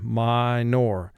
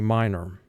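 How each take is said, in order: First: The word is said carefully, as it is spelled. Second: The word is said relaxed, as in conversation. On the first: "that's the spelling pronunciation" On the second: "in conversation, we say"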